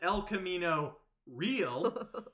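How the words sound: It is pronounced fully the English way. "commit to the Anglo version"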